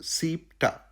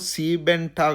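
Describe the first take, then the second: First: The word has two syllables, dropping the -en. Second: The word has three syllables, keeping the -en. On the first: The speaker calls it right. "ఓకేనా?" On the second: The speaker calls it wrong. "కాదు"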